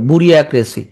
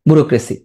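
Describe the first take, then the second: First: The word is broken into parts like 'buria cracy'. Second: The word is said with its usual smooth pronunciation.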